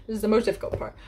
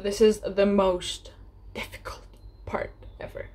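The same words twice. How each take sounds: First: Said in the usual way. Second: Dramatic hush. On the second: Acted. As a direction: drop to a dramatic whisper. Dreaded step announced in hushed voice.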